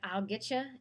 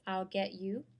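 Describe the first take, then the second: First: The words are slurred together. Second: Each word is said clearly and separately. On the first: The speaker calls it wrong. "avoid slurring your words together like" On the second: The speaker calls it right.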